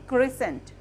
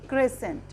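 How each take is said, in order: No difference in how they are said.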